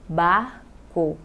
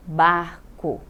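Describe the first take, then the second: First: "barco" as bar, pause, co; split into syllables. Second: Said in the usual way. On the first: Shown as a demonstration. Teacher separating R from C, "barco" in two syllables. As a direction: break "barco" between r and c. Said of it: "Eu separei o R do C". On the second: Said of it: "vamos pegar essas três palavras".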